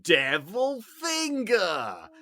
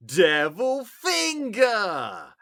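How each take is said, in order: First: Slow, high, drawn-out Devil Finger; shouted catchphrase. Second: Slow, drawn-out high shout of Devil Finger; shouted catchphrase. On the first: Retelling the kid's sketch line, drawn-out high shout. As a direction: stretch out each word, loud and high. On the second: Kid in a sketch yelling his catchphrase, slow high shout. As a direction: bellow it like a possessed kid. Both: Retold or imitated. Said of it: "he would always say it with that inflection".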